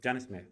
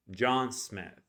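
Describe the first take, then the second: First: Faster Spanish-accented name, short even syllables. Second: "John Smith" with long, full, stressed vowels; very big vowels. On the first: Teacher contrasting with English, quick Spanish accent. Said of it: "it's a little bit faster". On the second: Teacher contrasting English with Spanish, very big vowels in "John Smith". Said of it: "very big". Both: Shown as a demonstration.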